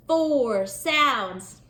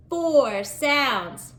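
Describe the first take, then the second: First: Said in the usual way. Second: Four said high and firm; four hit as the key word; stress on four. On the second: Shown as a demonstration. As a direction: lean on four.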